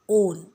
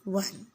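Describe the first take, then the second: First: The vowel is a long 'oh' sound. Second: The word sounds like the number one. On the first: The speaker calls it right. "the pronunciation which we will have to do is not one, but it is O N O W N, own" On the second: The speaker calls it wrong. "not O N E, one"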